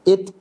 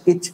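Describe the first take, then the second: First: The final t is released with a short burst. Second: The final t becomes a ch friction. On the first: The speaker calls it right. "Kita tekan at, it, ut. Bocor dengan sendiri. Ya, meletup dia" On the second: The speaker calls it wrong. "Atau ach, ich, uch"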